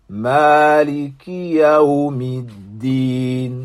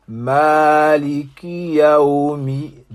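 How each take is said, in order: No difference in how they are said.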